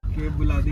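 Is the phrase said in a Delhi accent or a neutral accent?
neutral. It is said in a plain, neutral accent.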